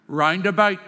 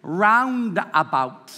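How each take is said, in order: First: "roundabout" as "rind-a-bite"; Northern Irish roundabout. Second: "roundabout" with open "ow" in both stresses; standard roundabout. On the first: Teacher models for the audience, Northern Irish "rind-a-bite". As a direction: turn both "ow" sounds in "roundabout" to "eye". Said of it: "If you were from Northern Ireland". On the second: Teacher quotes the audience's way, careful "ow" in "roundabout". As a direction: slowly say "round-a-bout" English-style. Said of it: "You say". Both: Shown as a demonstration.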